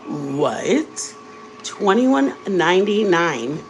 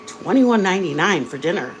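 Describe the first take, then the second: First: Slow, rising "Twenty-one ninety-nine?" in disbelief; shocked disbelief. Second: Said in the usual way. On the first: Retold or imitated. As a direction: drag out the price like you can't believe it. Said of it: "And I'm like". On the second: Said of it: "And then it's like".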